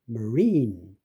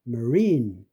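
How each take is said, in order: Both takes have the same delivery.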